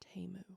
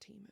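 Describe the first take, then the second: First: The first vowel sounds like 'eh'. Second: The first vowel sounds like 'ee'. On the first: The speaker calls it right. "Excuse me, it's Temu" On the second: The speaker calls it wrong. "not Timu"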